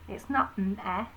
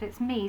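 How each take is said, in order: First: "meh" with a short open E; wrong vowel. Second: "me" with a long EE; the correct "me", clearly; right vowel. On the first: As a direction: clip "meh" short like "met" without the T. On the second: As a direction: stretch "me" into a long bright EE. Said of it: "It's not meh, is it?". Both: Shown as a demonstration.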